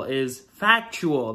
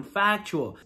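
First: Slow, weighty "factual"; stress on factual. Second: Said in the usual way. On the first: Real, not acted. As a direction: lean hard on "factual". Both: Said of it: "That's a huge one".

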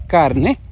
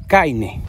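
First: Said in the usual way. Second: "caine" with an I glide instead of the R, slow; Cibao-style "caine", drawn out; "caine" con la I cibaeña. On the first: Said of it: "en vez de decir carne, decimos caine". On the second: Shown as a demonstration. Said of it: "en vez de decir carne, decimos".

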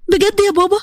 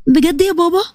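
First: High startled بجد, much higher; surprised. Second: Said in the usual way. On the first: Acted. Daughter stunned by her father's offer, surprised. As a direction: jump up in pitch on بجد in disbelief.

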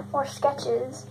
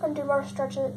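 First: "sketches" said correctly after the slip; fixing the word, clearly "sketches"; corrected word. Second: Says "stretches" by mistake instead of "sketches"; tongue slip, "stretches" said for "sketches". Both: Real, not acted.

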